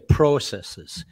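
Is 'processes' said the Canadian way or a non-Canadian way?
Canadian. It is said with a Canadian pronunciation.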